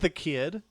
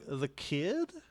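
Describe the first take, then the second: First: It falls at the end like a statement. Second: It rises at the end like a question.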